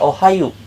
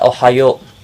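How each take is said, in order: First: The final vowel sounds like u. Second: The final vowel sounds like o. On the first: The speaker calls it wrong. "Hati-hati jangan dibaca ohayu" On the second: The speaker calls it right. "tetap dibaca ohayo"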